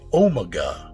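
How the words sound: It is said in an English accent.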